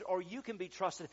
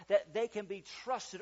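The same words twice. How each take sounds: First: "you" picked out as the contrast; stress on YOU. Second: "they" picked out, high and loud; stress on THEY. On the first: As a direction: lean on "you" in the phrase. Corrects they to you. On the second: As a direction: lean on "they" in the phrase. Contrasts they with you. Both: Real, not acted.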